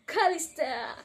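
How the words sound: The voice is cool, smooth and relaxed. "dengan cool abis"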